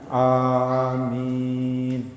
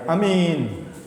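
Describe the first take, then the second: First: The first vowel is drawn out long. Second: The first vowel is short. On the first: It means grant our prayer. The speaker calls it right. "tapi amin" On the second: It means trustworthy or safe. The speaker calls it wrong. "Bukan amin"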